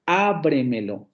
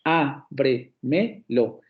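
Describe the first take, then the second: First: "Ábremelo" slow, with a long stressed Á; stress on first syllable. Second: "Ábremelo" very slow, as Á, bre, me, lo; four separated syllables in "Ábremelo", pausing between each; divided into syllables. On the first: Teacher showing a sobresdrújula, "Ábremelo" slowly stressed on the first Á. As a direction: lean on the opening Á of "Ábremelo", then fall away. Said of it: "el acento principal cae en la primera". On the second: Teacher dividing the word for students, "Ábremelo" syllable by syllable. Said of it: "Si ustedes dividen esa palabra". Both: Shown as a demonstration.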